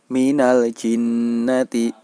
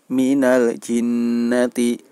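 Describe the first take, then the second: Both takes have the same delivery.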